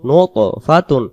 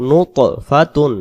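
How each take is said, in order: The two takes are said the same way.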